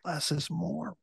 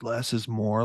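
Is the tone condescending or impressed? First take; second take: impressed; condescending. First: It is said in an awed, impressed tone. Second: It is said in a condescending, dismissive tone. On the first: The idea is taken as a new revelation. "the young and impressionable that are like, oh my God" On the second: The idea is used to belittle others. "it can be done in a very condescending way"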